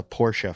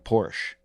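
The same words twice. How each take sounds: First: Porsche as "POR-shuh"; Porsche ending in "shuh"; two-syllable Porsche. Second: Porsche as "porsh"; Porsche cut to "porsh"; one-syllable Porsche. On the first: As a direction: sound the final e of Porsche. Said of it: "It's Porsche". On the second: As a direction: leave the final e of Porsche silent. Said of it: "I kept calling it Porsche". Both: Shown as a demonstration.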